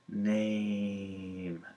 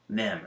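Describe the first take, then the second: First: The vowel glides clearly toward an ee sound. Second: The vowel stays flat with no ee glide. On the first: The speaker calls it right. "say name" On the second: The speaker calls it wrong. "So I'd say no no no nem"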